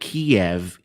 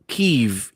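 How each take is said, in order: First: It is said the Russian way. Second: It is said the Ukrainian way. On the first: This is how Russians say the name. "is how the Russians pronounce it" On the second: This is how Ukrainians say the name. "is how the Ukrainians pronounce it"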